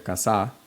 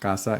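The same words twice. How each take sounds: First: The stress is on the second syllable. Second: The stress is on the first syllable. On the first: The speaker calls it wrong. "you don't say casa" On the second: The speaker calls it right. "you say casa because casa ends in an, in a vowel"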